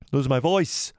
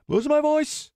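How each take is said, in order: First: Said in the usual way. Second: Voice cracking. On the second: Shown as a demonstration. Streamer hamming up a lost voice, squeaky break. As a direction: voice squeaking up much higher, held.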